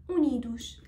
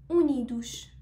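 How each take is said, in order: No difference in how they are said.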